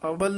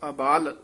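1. ਦੂਜਾ ਸਵਰ ਛੋਟਾ ਹੈ। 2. ਦੂਜਾ ਸਵਰ ਲੰਬਾ ਹੈ। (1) "ਅਬਲ ਨਹੀਂ ਕਹਿਣਾ ਹੈ" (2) "ਇਸ ਨੂੰ ਅਬਾਲ ਉਚਾਰਨ ਕਰਨਾ ਹੈ"

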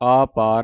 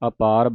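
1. ਪਹਿਲਾ ਸਵਰ ਲੰਮਾ ਹੈ। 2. ਪਹਿਲਾ ਸਵਰ ਛੋਟਾ ਹੈ। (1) "ਆਪਾਰ ਨਹੀਂ ਕਹਿਣਾ" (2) "ਅਪਾਰ ਬੋਲਣਾ ਹੈ"

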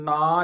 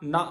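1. ਇਸ ਸ਼ਬਦ ਵਿੱਚ ਲੰਮਾ aa ਸਵਰ ਹੈ। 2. ਇਸ ਸ਼ਬਦ ਵਿੱਚ ਛੋਟਾ a ਸਵਰ ਹੈ। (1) "ਇਹਨੂੰ ਨਾ ਨਹੀਂ ਕਹਿਣਾ" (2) "ਨਾ ਬੋਲਣਾ ਆ, ਨੰਨਾ ਮੁਕਤਾ ਨਾ"

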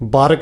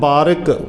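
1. R ਨੂੰ 'i' ਸਵਰ ਤੋਂ ਬਿਨਾਂ ਬੋਲਿਆ ਜਾਂਦਾ ਹੈ। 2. R ਨੂੰ 'i' ਸਵਰ ਨਾਲ ਬੋਲਿਆ ਜਾਂਦਾ ਹੈ। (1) "ਬਾਰਿਕ ਬਾਰਿਕ ਸਿੱਧਾ ਪੜ੍ਹ ਜਾਂਦੇ" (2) "ਬਾਰਿਕ ਰਾਰੇ ਨੂੰ ਸਿਆਰੀ ਹੈ ਜੀ"

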